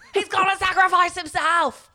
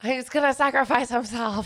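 First: It is said in a put-on Harry Potter voice. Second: It is said in his normal voice.

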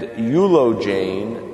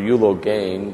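First: The g sound is soft and light. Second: The g sound is hard and strong.

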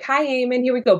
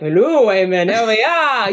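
First: It is said in her own plain voice. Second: It is said in a put-on character voice.

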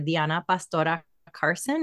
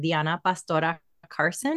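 First: The name is said with Spanish pronunciation. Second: The name is said with Spanish pronunciation.

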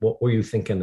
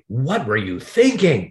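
First: It sounds curious and open. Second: It sounds accusing and critical.

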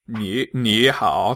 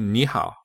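First: Both syllables carry a low dipping third tone. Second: The first syllable rises, changed to a second tone. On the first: The speaker calls it wrong. "That's really difficult to pronounce, actually" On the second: The speaker calls it right. "So it turns into ni hao"

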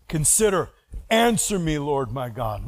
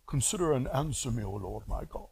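First: It is said with intense, urgent passion. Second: It is said in a meek, mild way.

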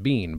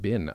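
First: The vowel is long, like in bean. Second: The vowel is short, like in bin. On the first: "My brain thinks I should have said bean" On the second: "I said, Bin"

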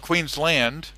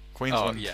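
First: The last syllable is a full 'land'. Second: The last syllable is a reduced 'lund'. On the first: The speaker calls it wrong. "It's spelt Queensland, but we don't say land" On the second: The speaker calls it right. "We say Lund"

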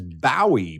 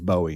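First: The first syllable sounds like a ship's bow. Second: The first syllable does not sound like a ship's bow. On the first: The speaker calls it wrong. "mispronounce it as Bowie, ... as bow of like a bow of a ship" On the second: The speaker calls it right. "But it is Bowie"

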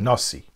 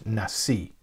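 First: It is said in Ashkenazic Hebrew pronunciation. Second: It is said in modern Israeli Hebrew pronunciation.

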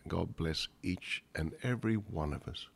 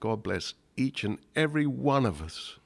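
First: It is said intimately, as to a small family. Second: It is said grandly, as to the whole world. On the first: It is addressed to the family gathered there. "the first one is to the Cratchit family" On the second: It is addressed to the world at large. "Quite different, the world at large"

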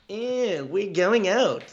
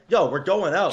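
First: It sounds whiny and deflated. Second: It sounds cool and confident.

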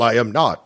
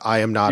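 First: It is said in a light, unserious way. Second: It is said in a flat, serious way. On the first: The denial is not meant sincerely. "he didn't say, like, well" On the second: The denial is meant sincerely. "the way he was serious"

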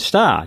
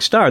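First: The r sound at the end is dropped. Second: The r sound at the end is pronounced. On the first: "parents had very heavy Boston accents" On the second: "he didn't have that Boston accent"

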